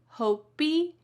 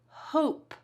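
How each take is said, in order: First: The word ends with an extra ee vowel. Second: The word ends on a plain p sound. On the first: The speaker calls it wrong. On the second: The speaker calls it right.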